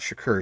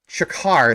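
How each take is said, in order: First: The name ends with a 'koor' sound. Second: The name ends with a 'kar' sound. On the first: The speaker calls it wrong. "not Shakur" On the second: The speaker calls it right. "said it right this time"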